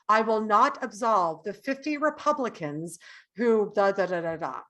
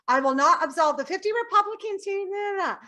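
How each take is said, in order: First: It is said slowly in a low voice. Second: It is said fast in a high voice.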